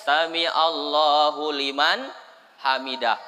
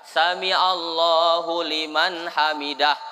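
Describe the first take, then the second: The two takes are said the same way.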